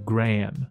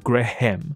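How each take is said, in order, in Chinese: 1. h不发音，没有清楚的'ham'音。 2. h发音，有清楚的'ham'音。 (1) "它的H 是没有音的" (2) "而不是Graham"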